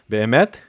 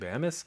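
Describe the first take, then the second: First: The word ends with a t sound. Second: The word ends with an s sound. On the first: The speaker calls it right. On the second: The speaker calls it wrong.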